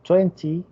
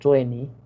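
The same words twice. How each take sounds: First: The middle T sound is clearly pronounced. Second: The middle T sound is dropped.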